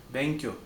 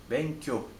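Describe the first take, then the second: Both takes have the same delivery.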